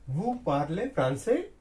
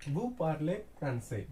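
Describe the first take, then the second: First: "français" raised sharply at the end, as a question; rising question tone. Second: Said in the usual way. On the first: Shown as a demonstration. French teacher turning a statement into a question, end rising. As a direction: lift the pitch on the last syllable of "français". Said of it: "at the ending we have to raise our tone". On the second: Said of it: "means you are speaking French. If we make into question form".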